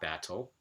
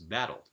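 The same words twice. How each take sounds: First: The middle consonant is a clear t sound. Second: The middle consonant is a quick tap. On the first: The speaker calls it wrong. "It's not battle" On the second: The speaker calls it right. "it's battle. So that r sound is a tap or a flap"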